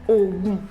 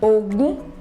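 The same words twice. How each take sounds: First: Both syllables are on a low tone. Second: The tone goes from mid to high. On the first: "Do, Do"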